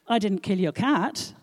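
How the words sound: The stress falls on 'cat'.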